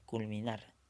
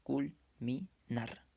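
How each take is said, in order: First: Said in the usual way. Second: Very slow "Culminar", broken into cul, mi, nar; syllable by syllable. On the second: Shown as a demonstration. Teacher separating the syllables for students, "Culminar" slowly, syllable by syllable. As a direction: split "Culminar" into three separate syllables with pauses. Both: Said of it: "pronúncialo de corrido nada más".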